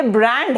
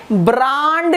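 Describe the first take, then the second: First: ब्रांड with the English short 'a' of 'cat'; correct pronunciation. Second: ब्रांड with a long open 'aa' vowel; common mispronunciation. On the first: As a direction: say ब्रांड as 'brand', vowel like 'bat'. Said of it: "This word is pronounced as brand". (ब्रांड को 'ब्रैंड' की तरह बोलें) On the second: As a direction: say ब्रांड as 'braand', drawn out. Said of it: "लोग कैसे बोलते हैं मैं ये भी बताती हूँ". (ब्रांड को लंबे 'आ' के साथ बोलें) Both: Shown as a demonstration.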